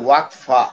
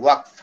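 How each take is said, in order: First: The word ends with an extra vowel sound. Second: The word ends on a consonant, shortened. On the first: This is the Arabic form of the word. "আরবিতে বলে ওয়াকফা" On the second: This is the Urdu form of the word. "উর্দুতে উচ্চারণটা ছোট ওয়াকফ"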